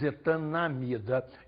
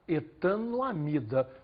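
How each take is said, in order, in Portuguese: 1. Não se fala som 'o' antes de 'amida'. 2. Fala-se um som 'o' antes de 'amida'.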